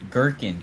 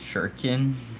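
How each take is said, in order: First: The word begins with a hard G sound. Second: The word begins with a J sound. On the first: The speaker calls it right. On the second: The speaker calls it wrong.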